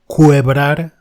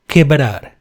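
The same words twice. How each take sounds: First: A u sound is heard after the k. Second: No u sound is heard after the k. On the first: The speaker calls it wrong. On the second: The speaker calls it right.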